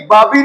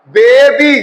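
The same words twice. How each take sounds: First: बाबी said with a flat short a; the wrong way, बाबी with aa; wrong reading shown. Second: बेबी with a long ay sound; right reading shown. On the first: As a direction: demo of the mistake बाबी. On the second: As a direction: say बेबी with long ay, not baa. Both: Shown as a demonstration. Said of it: "बाबी नहीं पढ़ना".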